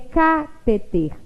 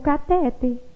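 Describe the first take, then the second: First: The stress is on the first syllable. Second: The stress is on the middle syllable. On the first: "se ela fosse proparoxítona, ela também teria acento na antepenúltima sílaba" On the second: "ela não pode ser pronunciada como catéter, porque ela não é paroxítona"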